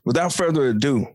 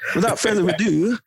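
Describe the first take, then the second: First: It is said in the speaker's own American accent. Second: It is said in an attempted British accent. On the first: "I like to say it kind of like that" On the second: "I wish I had like a British accent"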